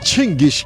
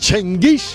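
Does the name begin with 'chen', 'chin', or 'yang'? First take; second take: chin; chen. First: The name begins with a 'chin' sound. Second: The name begins with a 'chen' sound. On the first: This is how Mongolians say it. "মঙ্গোলিয়ানরা বলে চিঙ্গিস" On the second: This is how it is said in the speaker's home country. "আমার জন্মদেশে বলে চেঙ্গিস"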